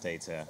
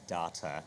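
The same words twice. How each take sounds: First: The word is said a non-South African way. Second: The word is said the South African way. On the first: "not data" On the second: "I'm from South Africa, so I say data"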